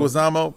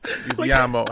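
First: Leguizamo said as "leg-wuh-ZAH-mo"; corrected surname. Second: Leguizamo said as "wee-zee-AH-mo" at the end; mispronounced surname. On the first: Host echoing his friend's correction, corrected surname. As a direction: say Leguizamo without the extra "ee", ending "ZAH-mo". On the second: Host repeating the name for amused friends, mispronounced surname. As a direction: put an extra "ee" in Leguizamo, before "AH-mo". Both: Real, not acted. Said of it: "How do you pronounce his last name".

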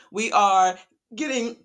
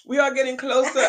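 First: Choking mid-sentence; words caught by a choke; choking on a drink. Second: Laughing through a cough; recovering with a laugh; laughing after choking. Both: Real, not acted. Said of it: "I'm choking".

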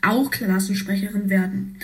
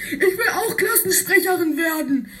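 First: Said in the usual way. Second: Put-on high, laughing whine of a girl who wants to win; whiny child voice. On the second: Piper begging to be class rep, high laughing whine. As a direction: squeal it half laughing, half crying.

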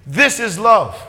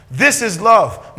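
First: A plain but weighty "This is love"; firm statement. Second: "This is love" much slower, a bit louder, "This" leaned on hard; slow emphatic repeat. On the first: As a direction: stress on "This", falling firmly on "love". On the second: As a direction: stretch out "This is love" and let each word land. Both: Shown as a demonstration.

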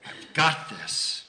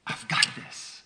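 First: "got" drawn out and stressed, very slow; slow, emphatic voice of God; slow and firm. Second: Breathy, hushed "I've got this"; hushed voice of God reassuring Alan; soft whisper. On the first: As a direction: lean on "got", slowly. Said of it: "when God said". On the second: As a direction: whisper it like a gentle promise. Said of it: "He said". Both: Retold or imitated.

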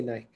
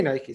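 First: Nike rhyming with "bike"; one-syllable Nike. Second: Nike pronounced "NY-kee"; two-syllable Nike. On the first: Quoting how other people say it, Nike as "nyk". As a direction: drop the final vowel of Nike. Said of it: "I know people say Nike". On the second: Telling the co-host own usage, Nike as "NY-kee". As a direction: sound the final e of Nike as "ee". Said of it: "I say Nike". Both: Shown as a demonstration.

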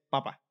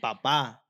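First: Papa with PA first and a light ending; potato word papa, stressed up front; stress on first syllable. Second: Papá with a long stressed last syllable; stress on final A. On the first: Friend explaining the potato word, papa stressed on the first syllable. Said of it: "si dices potato, es papa". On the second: Friend contrasting it with potato, papá stressed on the end. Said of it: "la última A tiene el acento". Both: Shown as a demonstration.

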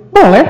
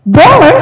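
First: Loud, short "Boleh"; quick, forceful yes; different intonation. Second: High, loud "Boleh"; exaggerated high-pitched yes; different intonation. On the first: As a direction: punch out "Boleh" with a falling tone. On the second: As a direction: swoop "Boleh" up high and come down, much louder. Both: Shown as a demonstration. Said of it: "Beda lagi".

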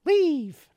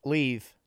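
First: High, loud barked order; sudden shout. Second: Said in the usual way. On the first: Pretend. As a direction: yell it suddenly, mock-angry. Mock throwing guests out.

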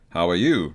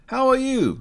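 First: Low gruff reply greeting. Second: Bright high-voiced greeting. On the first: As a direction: answer in a low voice. Other man returns. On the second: First man greets. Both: A narrator's reading.

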